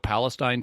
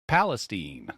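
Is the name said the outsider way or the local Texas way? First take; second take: outsider; local Texas. First: It is said the way outsiders read it. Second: It is said the local Texas way. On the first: Someone unfamiliar with the town reads it off the page. The speaker calls it wrong. "people look at that and go" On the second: This is how people in the town say it. The speaker calls it right. "No, no, no"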